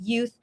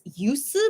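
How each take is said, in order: First: The word ends with a th sound. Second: The word ends with an s sound.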